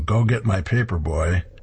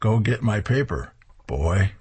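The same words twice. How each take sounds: First: It runs straight through with no pause before boy. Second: There is a pause between paper and boy.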